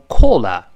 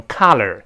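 First: Collar in British English, rounded o, no final r; British KOLL-uh for collar; British pronunciation. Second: American KAH-ler for collar, open ah; American collar with open ah and curled r; American pronunciation. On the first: Teacher shows how the British say it, British collar. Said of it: "英国人读成collar". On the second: Teacher shows how Americans say collar, American open ah. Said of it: "美国人把O变成啊". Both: Shown as a demonstration.

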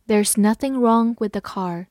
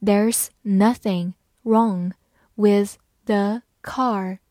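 First: Said in the usual way. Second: Slow, word by word; slow and clear, each word apart; slow reading. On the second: Shown as a demonstration. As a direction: read it out slowly for learners. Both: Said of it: "好，慢慢来读。".

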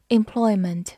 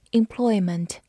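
The two takes are said the same way.

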